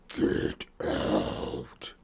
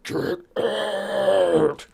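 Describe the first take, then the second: First: It is said quietly, without shouting. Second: It is screamed loudly.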